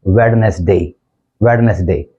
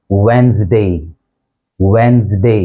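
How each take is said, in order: First: वेडनेसडे with the D sounded, wed-nes-day; common mispronunciation. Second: वेंसडे in two syllables, wenz-day; correct pronunciation. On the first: Teacher showing what people say, वेडनेसडे as wed-nes-day. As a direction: say वेडनेसडे in three parts, as spelt. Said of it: "लोग बोल देते हैं". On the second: Teacher modelling the correct word for students, वेंसडे as wenz-day. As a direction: say वेंसडे with a silent D. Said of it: "correct pronunciation है वो है". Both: Shown as a demonstration.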